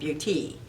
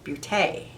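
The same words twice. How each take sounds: First: The word is given an English pronunciation. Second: The word is given a French pronunciation. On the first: The speaker calls it wrong. "not Beauty" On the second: The speaker calls it right. "it's the French pronunciation"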